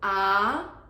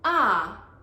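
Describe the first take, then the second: First: The pitch rises from middle to high. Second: The pitch falls sharply from high to low. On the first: "second tone ah" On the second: "fourth tone ah"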